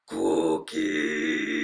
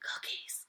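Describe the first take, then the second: First: It is said in a Cookie Monster voice. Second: It is said in the speaker's normal voice.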